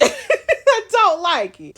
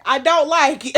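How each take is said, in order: First: Slow, laughing, louder and higher drawl; laughing repeat. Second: Loud, higher, flat-out declaration; firm dislike. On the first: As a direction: stretch it out through the laugh. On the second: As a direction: plant your foot: you don't like it. Gamer repeats her dislike. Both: Real, not acted.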